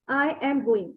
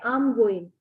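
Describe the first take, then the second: First: 'I am' is said as two full words. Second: 'I am' is contracted into one syllable. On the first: "I've seen people saying" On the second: "You can simply say"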